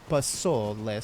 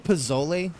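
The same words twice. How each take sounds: First: The middle consonant is a hissing s sound. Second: The middle consonant is a buzzing z sound. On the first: The speaker calls it right. "so not z" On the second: The speaker calls it wrong. "some say pozole"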